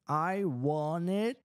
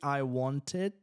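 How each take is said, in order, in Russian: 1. Звук t в 'want' пропускается. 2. Звук t в 'want' произносится. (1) "Мы выбрасываем здесь T" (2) "неудобно говорить"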